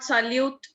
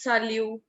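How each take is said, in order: First: The final consonant is pronounced. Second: The final consonant is silent. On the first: The speaker calls it wrong. "It's not salute" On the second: The speaker calls it right. "it's salute"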